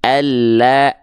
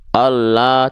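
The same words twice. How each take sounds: First: "Allah" slow, with thin smiling A vowels; tipis, sedikit senyum. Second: "Allah" with thick O vowels, like "ollo"; the wrong heavy, rounded "Allah"; bukan lam tipis. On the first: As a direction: stretch a light, open A in "Allah". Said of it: "sedikit senyum". ("Allah" tipis, panjang, sedikit senyum) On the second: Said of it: "Jadi bukan". ("Allah" tebal seperti vokal O, salah) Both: Shown as a demonstration.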